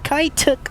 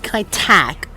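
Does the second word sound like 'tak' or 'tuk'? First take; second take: tuk; tak. First: The second word sounds like 'tuk'. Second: The second word sounds like 'tak'. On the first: The speaker calls it wrong. "Not Tuk" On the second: The speaker calls it right. "It should be Kai Tak"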